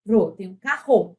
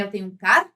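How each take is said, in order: First: Said in the usual way. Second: "carro" cut into car, pause, ro; wrongly split syllables. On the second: Shown as a demonstration. Teacher demonstrating the wrong "carro", chopped in two. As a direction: break "carro" between the two r's, sounding each. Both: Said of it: "Você não fala assim".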